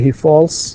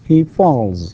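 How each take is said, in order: First: The word ends with an s sound. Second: The word ends with a z sound. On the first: The speaker calls it wrong. "ننطقه س false ... doesn't sound correct" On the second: The speaker calls it right. "this sound is voiced"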